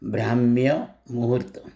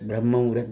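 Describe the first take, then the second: First: The first word is longer, said as brahmya. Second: The first word is short, said as brahm. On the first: The speaker calls it right. "સાચો શબ્દ છે" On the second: The speaker calls it wrong. "બધા બ્રહ્મ મુહૂર્ત બ્રહ્મ મુહૂર્ત બોલે છે"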